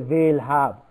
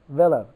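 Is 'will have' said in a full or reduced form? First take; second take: full; reduced. First: The words are full, strong and emphasized. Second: The words are short, weak and reduced. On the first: The speaker calls it wrong. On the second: The speaker calls it right.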